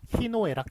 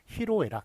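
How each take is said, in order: First: The second syllable starts with an n sound. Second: The second syllable starts with an l sound. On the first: The speaker calls it wrong. "희노애락 틀립니다" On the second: The speaker calls it right. "희로애락이 맞습니다"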